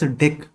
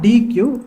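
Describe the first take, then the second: First: It is said as one syllable, deck. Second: It is spelled out as two letters. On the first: The speaker calls it right. "it is pronounced as deck" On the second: The speaker calls it wrong. "It is not D Q"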